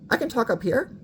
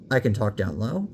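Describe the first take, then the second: First: Higher voice rising on "here"; talking up high. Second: Talking down low. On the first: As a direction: place the voice up high. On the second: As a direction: lower voice on "down low". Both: Shown as a demonstration.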